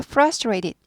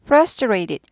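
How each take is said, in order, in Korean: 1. 두 번째 t는 부드러운 d 소리입니다. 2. 두 번째 t는 부드러운 d 소리입니다.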